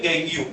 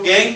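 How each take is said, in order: First: "गैंगियम" said as gang-yoo; two-syllable pronunciation. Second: "गैंग" as one syllable, like English gang; alternative pronunciation. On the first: Teacher naming ore impurities for students, "गैंगियम" pronounced gang-yoo. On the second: Teacher giving students the other name, "गैंग" pronounced simply gang. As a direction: say "गैंग" with no yoo ending. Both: Shown as a demonstration. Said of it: "कुछ लोग गैंग भी बोलते हैं".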